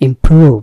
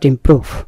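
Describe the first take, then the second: First: The middle vowel is drawn out long. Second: The middle vowel is cut short. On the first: The speaker calls it right. "এটা একটু লম্বা হবে" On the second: The speaker calls it wrong. "নট"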